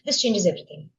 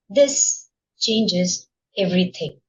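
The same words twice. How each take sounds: First: It is said flatly, without emphasis or pauses. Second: It is said expressively, with emphasis and pauses.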